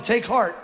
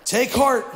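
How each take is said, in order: First: Said in the usual way. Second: "Take heart" pushed out louder; firm louder call. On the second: Shown as a demonstration. Pastor modeling the phrase louder for the crowd. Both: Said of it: "tell him".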